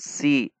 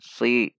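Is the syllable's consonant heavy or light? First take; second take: light; heavy. First: The consonant is light, tongue root not raised. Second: The consonant is heavy, tongue root raised. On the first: The speaker calls it wrong. "bukan si" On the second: The speaker calls it right. "namun si, menaikkan pangkal lidah"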